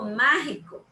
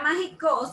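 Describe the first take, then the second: First: The stress is on the first syllable. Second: The stress is on the last syllable. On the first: The speaker calls it right. "pero yo digo mágico" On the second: The speaker calls it wrong. "el acento sería en la O"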